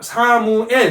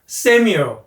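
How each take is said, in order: First: It is said with Korean syllables and sounds. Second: It is said with English sounds and stress. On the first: The speaker calls it wrong. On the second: The speaker calls it right.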